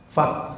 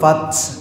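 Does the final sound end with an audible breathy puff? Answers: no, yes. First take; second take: no; yes. First: The final sound ends without an audible breathy puff. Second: The final sound ends with an audible breathy puff. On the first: The speaker calls it right. "Enggak keluar hambasnya" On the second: The speaker calls it wrong. "Kenapa ada hambasnya, ada taknya?"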